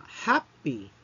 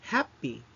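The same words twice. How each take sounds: First: Happy said slowly as HAP-py, first syllable stressed; slow teaching happy, HAP stressed. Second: Happy said as HAP-py, falling from the HAP; Happy with the weight on HAP; stress on first syllable. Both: Shown as a demonstration. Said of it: "the stress falls on the first syllable".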